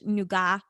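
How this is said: The word is said the British way.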